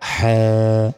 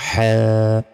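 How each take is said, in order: Both takes have the same delivery.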